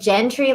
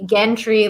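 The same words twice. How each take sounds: First: It begins with a soft J sound. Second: It begins with a hard G sound. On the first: "like with a J" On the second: "G Gentry like with like, you know, G, G give"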